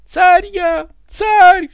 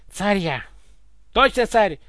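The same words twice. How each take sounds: First: Very high, very loud scream; full-voice yell. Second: Higher, mildly indignant insistence. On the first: Ivan proclaims himself tsar, full-voice yell. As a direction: scream it at the top of your voice. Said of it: "заорал Иван во весь голос". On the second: Ivan confirms to Egor he is tsar, indignant. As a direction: insist crossly, without yelling. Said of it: "возмущённо бурчал Иван". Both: A narrator's reading.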